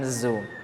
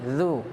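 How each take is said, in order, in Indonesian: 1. Konsonannya bunyi z yang biasa dan jelas. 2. Konsonannya lembut, dengan ujung lidah sedikit keluar. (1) "bukan zu" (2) "mengeluarkan sedikit ujung lidah tadi, sehingga bunyinya menjadi zu"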